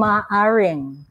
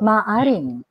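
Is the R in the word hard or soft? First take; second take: soft; hard. First: The R is soft, like an English R. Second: The R is hard, a firm tapped R. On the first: The speaker calls it wrong. "Huwag mong gawing maaring" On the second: The speaker calls it right. "Tigasan mo yung R mo"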